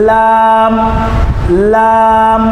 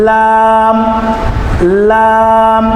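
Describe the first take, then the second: The two takes are said the same way.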